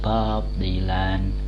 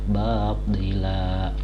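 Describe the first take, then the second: First: The word ends with an n sound. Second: The word ends with a long a vowel. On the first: The speaker calls it wrong. "Tidak dibaca bab dilan" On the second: The speaker calls it right. "tapi dibaca bab dila"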